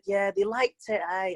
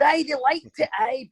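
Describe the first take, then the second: First: It is said in the speaker's own accent. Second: It is said in the Scottish coach's accent.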